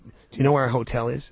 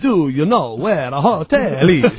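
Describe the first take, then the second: First: It is said in her ordinary accent. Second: It is said in a put-on Italian accent.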